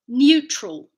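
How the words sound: It has a y sound after the n. "British English"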